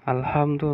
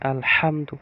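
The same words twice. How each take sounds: First: The h sound is light, not from the throat. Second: The h sound comes from deep in the throat. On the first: The speaker calls it wrong. "আলহামদু নয়" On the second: The speaker calls it right. "হা কন্ঠনালির মাঝখান থেকে উচ্চারিত হবে"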